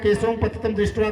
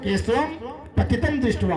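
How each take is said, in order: First: The phrase runs together without any pause. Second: There is a short pause inside the phrase. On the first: Keshava is seen fallen. "जब साथ में कह जाओ" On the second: A corpse is seen floating in the water. "शब्द विच्छेद करने के लिए केशवम, थोड़ा रुक दे"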